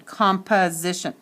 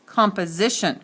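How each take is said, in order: First: Composition sounded out with an uh in the middle; schwa in composition. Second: Said in the usual way. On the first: Shown as a demonstration. Teacher showing the schwa, uh in composition. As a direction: separate the uh in composition. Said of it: "It says uh".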